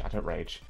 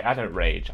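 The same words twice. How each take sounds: First: I don't rage, said much softer and muttered; quiet insistence. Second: Said in the usual way. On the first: Real, not acted. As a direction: repeat I don't rage under your breath. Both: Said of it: "It wasn't ra".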